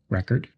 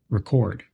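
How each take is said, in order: First: The stress is on the first syllable. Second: The stress is on the second syllable. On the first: It is a noun. "stressed on the first syllable when it's a noun" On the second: It is a verb. "on the second syllable when it's a verb"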